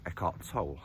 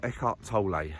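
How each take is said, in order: First: "Tolle" with a silent final E, rhyming with "pole"; Tolle as one syllable. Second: "Tolle" with the final E sounded as "lay"; Tolle as two syllables. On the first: Naming the author to viewers, "Tolle" said as "toll". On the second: Offering viewers the other pronunciation, "Tolle" as "TOH-lay". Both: Shown as a demonstration. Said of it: "different people pronounce it different ways".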